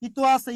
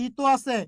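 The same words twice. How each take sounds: The two takes are said the same way.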